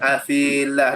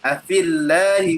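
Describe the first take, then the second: First: The vowel of 'fi' is long. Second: The vowel of 'fi' is short. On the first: The speaker calls it wrong. "Tak boleh baca afilah" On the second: The speaker calls it right. "Maknanya gugur dah huruf ya tu bila bertemu dua sukun"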